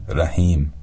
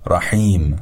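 First: رحیم with an ordinary h; Persian h. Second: رحیم with a throaty ḥ, the throat slightly tightened; رحیم with a pharyngeal ḥ; correct Arabic ḥ. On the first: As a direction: say رحیم with a light breathy h. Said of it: "به جای". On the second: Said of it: "به تلفظ صحیح این کلمات دقت بفرمایید". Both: Shown as a demonstration.

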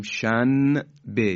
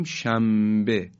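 First: شنبه said shanbe with a clear n before b, slowly; wrong clear nun. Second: شنبه said as shambe, the n becoming m before b; nun turned to mim. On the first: Teacher showing the wrong way, slow shanbe. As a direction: spell out shanbe with a distinct n. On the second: Teacher showing the natural Persian way, saying shambe. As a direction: say شنبه with lips closed, shambe. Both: Shown as a demonstration.

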